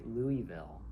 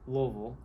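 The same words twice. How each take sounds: First: The word is said with all syllables fully sounded. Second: The word is squeezed into almost one syllable. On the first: This is how outsiders say it. "people outside of Louisville say" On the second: This is how local people say it. "which is almost like one syllable"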